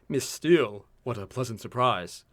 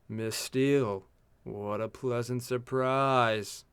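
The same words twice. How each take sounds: First: It is said with a lot of emotion. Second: It is said with little emotion, more flatly. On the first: The speaker calls it wrong. "I said that with much too emotion" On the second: The speaker calls it right. "That's better"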